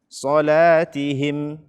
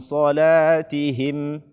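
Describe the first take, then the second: No difference in how they are said.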